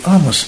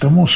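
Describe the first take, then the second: First: The stress is on the first syllable. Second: The stress is on the last syllable. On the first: "говорю «Амос»" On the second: "Чехи произносят «Амос», у них ударение скатывается на последний слог"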